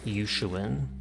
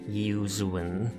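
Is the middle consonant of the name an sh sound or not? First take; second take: sh; not sh. First: The middle consonant is an sh sound. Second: The middle consonant is not an sh sound. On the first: The speaker calls it right. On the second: The speaker calls it wrong.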